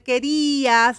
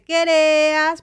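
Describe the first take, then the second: First: The stressed vowel is pronounced as an I sound. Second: The stressed vowel is pronounced as an E sound. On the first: "en vez de querías" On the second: "pronunciar una E"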